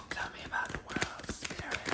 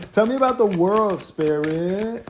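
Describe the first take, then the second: First: Hushed whisper to the cards; lowered tone, whispered. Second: Loud, high, drawn-out demand; yelling. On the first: Tarot reader asking the cards more gently, whispering. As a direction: coax it out in a soft whisper. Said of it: "Let me lower my tone". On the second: Tarot reader demanding the cards speak, yelling. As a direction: call it out slowly at a yell. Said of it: "I don't mean to yell at you". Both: Real, not acted.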